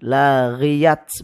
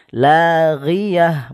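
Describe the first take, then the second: First: The word ends with a t sound. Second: The word ends with an h sound. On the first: The speaker calls it wrong. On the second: The speaker calls it right. "tak marbutoh ini berubah menjadi suara ha"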